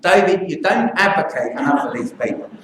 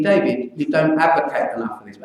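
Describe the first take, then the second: First: A light Cockney accent, mildly imitated. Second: Said in the usual way. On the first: Doctor quoting the feisty English nurse in a light Cockney accent. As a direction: sketch the nurse in a hint of Cockney. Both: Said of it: "I should do my Cockney accent".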